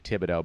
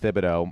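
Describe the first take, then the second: First: The name begins with a plain 't' sound. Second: The name begins with a 'th' sound. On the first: It sounds better and alliterates with the first name. "silent H and everything" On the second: This is how his father says it. "my dad says Thibodeau"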